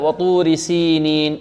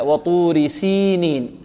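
First: The long vowel after the s is said lightly. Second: The long vowel after the s is overstressed. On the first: The speaker calls it right. "المتمرس ينطق هكذا" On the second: The speaker calls it wrong. "المبتدئ يركز عليها ويركز على أن هناك ياء مدية بعد السين"

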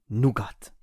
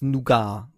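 First: The word is pronounced the German way. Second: The word is pronounced the French way. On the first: "im Deutschen Nougat" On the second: "im Französischen wird es Nougat gesprochen"

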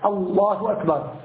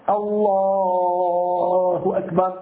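First: The vowel in Allah is cut short. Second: The vowel in Allah is drawn out long. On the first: The prayer is not validly begun. The speaker calls it wrong. "فإذا حذفه، ... هكذا فقط" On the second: The prayer is validly begun. The speaker calls it right. "لابد أن يمده أقل شيء حركتين وأكثر شيء ست حركات"

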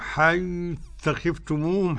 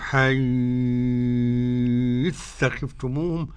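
First: The vowel after the final m lasts two counts. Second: The vowel after the final m lasts six counts. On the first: "حركتين" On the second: "ست حركات"

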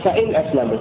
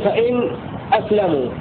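First: The words run on with no stop before it. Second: A brief breathless stop comes before the glottal stop. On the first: "ترك السكت يكون" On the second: "السكت يكون"

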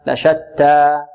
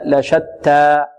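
Both takes have the same delivery.

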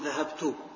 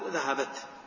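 First: The word ends in a final u vowel. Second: The word ends on a bare t sound. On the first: "يمكن أحركها بالضم" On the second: "وبالسكون"

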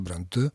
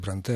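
First: The stress is on the second syllable. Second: The stress is on the first syllable. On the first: It follows the French way of stressing the name. The speaker calls it right. "Конечно, это галлицизм. Конечно, так и должна эта фамилия произноситься" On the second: It follows the English way of stressing the name. The speaker calls it wrong. "если ударение переходит на первый слог, то это тоже превращается в ложноакцентный англизм"

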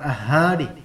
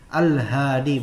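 First: The l is left out before the h. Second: The l is clearly pronounced before the h. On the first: The speaker calls it wrong. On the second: The speaker calls it right.

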